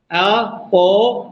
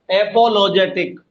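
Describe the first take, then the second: First: apologetic slowly split अ-पो-लो-जे-टिक; slow, chopped-up apologetic; syllable by syllable. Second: Said in the usual way. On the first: Shown as a demonstration. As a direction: pause between every syllable of apologetic. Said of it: "हो गए ना चार syllable". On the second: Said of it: "किस पे जोर पड़ रहा है".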